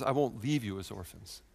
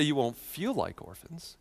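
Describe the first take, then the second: First: Softer line with weight on "leave"; quiet emphasis on the word "leave"; stress on LEAVE. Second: Slow, softer line leaning on "feel"; "feel" singled out, slowly; stress on FEEL. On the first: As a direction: gently contrast by leaning on "leave". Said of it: "He says". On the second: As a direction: draw out "feel" as the word in question. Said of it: "notice he doesn't say". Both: Shown as a demonstration.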